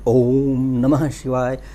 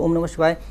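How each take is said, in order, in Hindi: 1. यह मजबूत, गुंजन वाले स्वर-कंपन के साथ बोला जाता है। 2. यह धीरे और सहज ढंग से बोला जाता है, बिना गूंज के। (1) "उच्चारण वाइब्रेशन के साथ होना" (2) "ऐसे आराम से नहीं बोलें"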